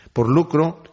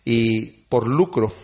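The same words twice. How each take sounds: First: Said in the usual way. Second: "lucro" drawn out slow with a falling close; slow, weighty "por lucro"; slow emphasis. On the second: Shown as a demonstration. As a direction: lean hard on "por lucro", slowly.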